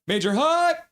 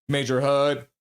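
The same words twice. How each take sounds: First: Squealed high on "hype"; high hype cheer. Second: Said in the usual way. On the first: Retold or imitated. Host repeating Carol's chat message, high hyped cheer. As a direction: jump way up in pitch on "hype".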